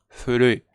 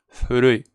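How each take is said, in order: Both takes have the same delivery.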